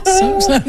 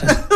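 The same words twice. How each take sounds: First: Sarcastic "So excited" jumping much higher; sarcastic excitement about the big screens for sport; mock excited. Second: Said in the usual way. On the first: Real, not acted. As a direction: fake enthusiasm she clearly doesn't feel.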